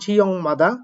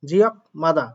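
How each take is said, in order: First: The first word ends with an ng sound. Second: The first word ends with a k sound. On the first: The speaker calls it right. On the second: The speaker calls it wrong.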